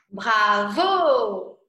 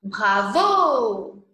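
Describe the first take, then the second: First: "Bravo" shouted loud like applause; cheering shout. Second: Said in the usual way. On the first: Shown as a demonstration. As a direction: call out "Bravo" to a performer. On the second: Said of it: "Le mot".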